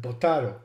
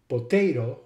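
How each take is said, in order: First: Potaro as "po-TAH-to"; ah-vowel potato. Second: Potato as "po-TAY-to"; long-A potato. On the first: Lecturer giving the other variant, potaro as po-TAH-to. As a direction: say potaro with an ah in the middle. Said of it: "potato and potaro". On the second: Lecturer giving vowel examples, potato with long ay. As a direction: say potato with an ay in the middle. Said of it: "Some other examples are". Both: Shown as a demonstration.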